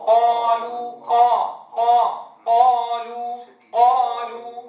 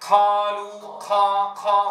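First: Loud, drawn-out قالوا with a clean, airless q; voiced ق without breath. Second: قالوا with a puff of air after q; breath on ق. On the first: Teacher models correct قالوا, loud and held. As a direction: hit ق in قالوا firmly with no puff, stretch the vowel. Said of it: "والأصل أن يقول أحدنا". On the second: Teacher shows the error in قالوا, aspirated whispery q. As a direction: let air escape on the ق of قالوا. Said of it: "همسها نحو". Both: Shown as a demonstration.

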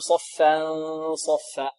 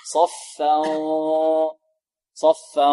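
First: صفا with the held ghunna wrongly kept light; wrong nasal hold. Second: صفا with a long, darkened nasal hum; heavy ghunna. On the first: Teacher showing students what to avoid, unrounded ghunna in صفا. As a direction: show the mistake in the hum ending the first صفا. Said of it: "هكذا لا نقول". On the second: Teacher correcting students, long heavy ghunna in صفا. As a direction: hold the nasal of صفا, thick like the following saad. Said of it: "من حيث التفخيم والترقيق". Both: Shown as a demonstration.

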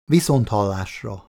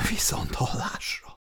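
First: Said in the usual way. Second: Stunned, voiceless whisper. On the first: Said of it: "fejezte be a beszélgetést az alezredes". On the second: A narrator's reading. Woman ending the call about her husband's death, whispered. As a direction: whisper the goodbye, barely voiced. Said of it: "suttogta Anita".

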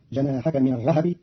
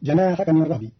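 First: "الرهب" said ar-rahab, a after the h; vowelled ha. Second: Said in the usual way. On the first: Shown as a demonstration. Teacher shows Qalun's reading, "الرهب" as ar-rahabi. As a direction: open up the h in "الرهب" with an a. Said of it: "بتحريك الهاء فتصير". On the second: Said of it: "قرأ قالون كلمة الرهب".

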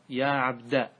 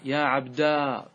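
First: "عبد" said as ʿabda, short final a; fatha on dāl. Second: "عبدا" with a drawn-out -daa; long final alif. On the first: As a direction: end "عبد" on a short open -da. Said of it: "بفتح الدال". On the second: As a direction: hold the last vowel of "عبدا" long. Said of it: "بالألف". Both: Shown as a demonstration.

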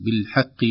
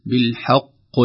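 First: "بالحق" with a lightened ق before the i vowel; careful "بالحق", ق only slightly heavy; weak kasra qaf. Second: "بالحق" with the final ق forced thick, like "qoy"; "بالحق" with a laboured, over-heavy ق; overdone heavy qaf. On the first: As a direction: end "بالحق" on a plain, unforced "qi". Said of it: "أن القاف ضعيفة". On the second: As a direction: strain to darken the "qi" ending of "بالحق". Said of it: "لا تكلف نفسك تقول". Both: Shown as a demonstration.

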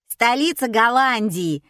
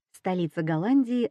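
First: Louder, higher call from the crowd; yelled question. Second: Said in the usual way. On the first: A narrator's reading. Spectator testing the assistant, yelling. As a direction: yell it out across the hall. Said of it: "заорал кто-то".

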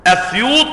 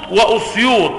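First: أسيوط beginning on a short "a"; fatha on hamza. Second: وأسيوط with a short "u" on the hamza; damma on hamza. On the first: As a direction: say أسيوط with an opening "a", Asyut. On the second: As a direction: say وأسيوط as wa-Usyut, with "u" after wa. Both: Shown as a demonstration. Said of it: "بالفتح وبالضم".

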